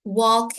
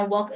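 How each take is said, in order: First: Walk said as wolk with the l sounded; the mistaken walk, l pronounced; wrong pronunciation of walk. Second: Walk said as wok, l silent; correct pronunciation of walk. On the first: (walk diucapkan salah, huruf l dibaca) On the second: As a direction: model walk as wok without the l. (walk diucapkan benar seperti wok, l tidak dibaca) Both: Shown as a demonstration. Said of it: "bacanya walk".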